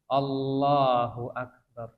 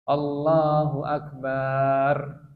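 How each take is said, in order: First: No vowel is lengthened beyond two beats. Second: The final 'bar' vowel of Akbar is drawn out. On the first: The speaker calls it right. "Ini dua huruf, dua ketukan" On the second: The speaker calls it wrong. "Memanjangkan barnya, merubah arti"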